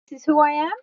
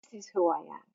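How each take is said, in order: First: Raised, doubtful question; questioning wrong answer. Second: Much softer, lower and settled; soft sincere answer. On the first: Pointing to the head, a doubtful questioning tone. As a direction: ask it as if unsure. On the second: Pointing to the heart, a soft sincere answer. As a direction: say it gently, meaning it. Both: Shown as a demonstration.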